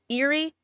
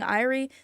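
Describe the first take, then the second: First: The word begins with an 'air' sound. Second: The word begins with an 'eye' sound. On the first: The speaker calls it right. "I'm pronouncing uh, Erie incorrectly" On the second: The speaker calls it wrong. "I keep saying Irie"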